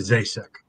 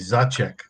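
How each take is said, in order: First: The name has an anglicized English pronunciation. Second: The name has its original old-country pronunciation. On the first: "it's anglicized to Zasek" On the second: "the old country pronunciation would be Zacek"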